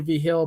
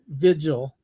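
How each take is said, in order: First: The name sounds like vee-heel, with an H sound. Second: The name sounds like vij-il, with a J sound. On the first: It is the speaker's own regional pronunciation. "I say V Hill" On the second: It is how the named person says it himself. "he says Vigil"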